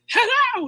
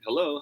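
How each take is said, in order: First: It is shouted at the top of the voice. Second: It is said at an ordinary speaking volume. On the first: The speaker calls it wrong. "you're not at the top of your voice, right? ... You don't say that" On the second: The speaker calls it right. "closest to your natural volume"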